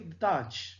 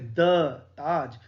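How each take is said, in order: First: The word "Taj" carries the stress. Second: The word "the" carries the stress. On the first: The speaker calls it right. "हम ऐसे बोलेंगे" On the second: The speaker calls it wrong. "द को stress नहीं करेंगे, हम ऐसे नहीं बोलेंगे"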